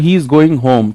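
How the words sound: The voice falls at the end like a statement.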